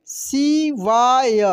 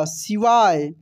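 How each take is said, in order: First: शिवाय slowly in three syllables, ending ya. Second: Said in the usual way. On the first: Shown as a demonstration. Teacher reading for learners, शिवाय slowly syllable by syllable. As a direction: stretch out each syllable of शिवाय. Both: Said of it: "अब direct पढ़ते हैं".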